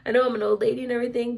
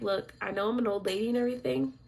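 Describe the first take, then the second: First: Rushed out, louder; fast emphatic. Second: Said in the usual way. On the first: Retold or imitated. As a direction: push the words out quickly and firmly. Repeats the line, pushier.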